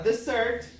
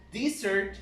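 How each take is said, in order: First: "dessert" said DEZ-ert, first syllable stressed; desert, the dry place. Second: "dessert" said di-ZERT, second syllable stressed; dessert, the sweet. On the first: Teacher showing students the dry-place word, DEZ-ert. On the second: Teacher showing students the after-meal word, di-ZERT. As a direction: say "dessert" as di-ZERT, leaning on the end. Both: Shown as a demonstration. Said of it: "Now you notice how it changes".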